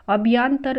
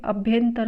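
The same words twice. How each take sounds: First: अभ्यांतर with long "yaan"; wrong form. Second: अभ्यंतर with short "yan"; correct form. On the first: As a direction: say अभ्यांतर as abh-YAAN-tar. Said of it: "अशुद्ध है". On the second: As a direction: say अभ्यंतर as abh-YAN-tar. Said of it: "होता है". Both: Shown as a demonstration.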